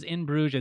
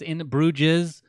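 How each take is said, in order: First: Said in the usual way. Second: In Bruges with Bruges in two syllables; mispronounced In Bruges. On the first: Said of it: "Ben Broomhead pronounces In Bruges as". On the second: Retold or imitated. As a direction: say In Bruges as "in BROO-jiz". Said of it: "pronounces In Bruges as In Bruges".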